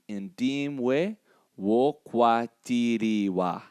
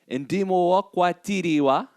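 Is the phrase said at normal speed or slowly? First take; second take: slowly; normal. First: The phrase is said slowly. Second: The phrase is said at normal speed.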